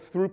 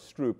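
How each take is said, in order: First: The word is said with a lisp. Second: The word is said without a lisp.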